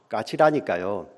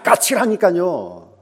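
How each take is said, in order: First: It sounds mildly irritated and impatient. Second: It sounds explosively angry and loud.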